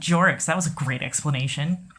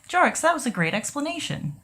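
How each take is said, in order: First: The praise is said in a mocking, sarcastic tone. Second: The praise is said in a warm, sincere tone. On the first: The speaker does not mean the compliment. "That sounds more mean" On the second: The speaker really means the compliment. "That seems sincere"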